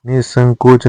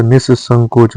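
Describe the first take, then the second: First: निसंकोच with one short s; no doubling in निसंकोच; single-s pronunciation. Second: निसंकोच with a long double s; doubled s. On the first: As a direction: say निसंकोच as ni-sankoch. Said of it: "निसंकोच नहीं होता". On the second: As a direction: hold the s in निसंकोच. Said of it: "निसंकोच होता है". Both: Shown as a demonstration.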